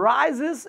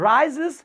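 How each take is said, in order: Both takes have the same delivery.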